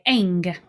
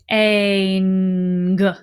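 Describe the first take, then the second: First: The sound is said at normal speed. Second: The sound is stretched out slowly. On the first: The speaker calls it right. "We don't say it that slow. We say ang" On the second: The speaker calls it wrong. "If I say ang slowly"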